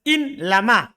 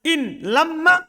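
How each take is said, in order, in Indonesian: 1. Bunyi m pendek dan ringan. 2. Bunyi m dobel dan ditahan. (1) "Dibaca ringan"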